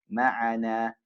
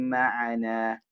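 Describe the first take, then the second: The two takes are said the same way.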